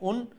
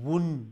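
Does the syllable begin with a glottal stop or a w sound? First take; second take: glottal stop; w sound. First: The syllable begins with a glottal stop. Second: The syllable begins with a rounded w sound. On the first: "হামজা নুন পেশ উন" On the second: "ওয়াও নুন পেশ অয়গা উন"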